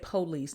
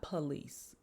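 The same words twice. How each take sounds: First: It is said with a country pronunciation. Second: It is said with a standard pronunciation. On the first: "why do I say police ... I'm country" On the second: "not police"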